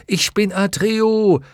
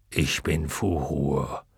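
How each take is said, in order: First: Put-on high, loud, slow boyish call. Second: Low, slow, soft dragon answer. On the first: Atreju calling his name to the waters, loud and high. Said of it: "rief Atreo". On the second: Luck dragon giving his name to the waters, low and slow. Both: A narrator's reading.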